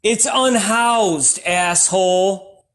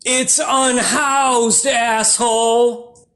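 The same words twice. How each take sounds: First: 1 snarky sign. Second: 1 slow snarky retort. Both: Retold or imitated. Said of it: "And the sign said".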